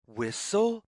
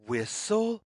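Both takes have the same delivery.

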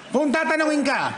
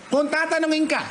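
No difference in how they are said.

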